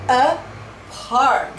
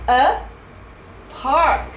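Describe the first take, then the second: Both takes have the same delivery.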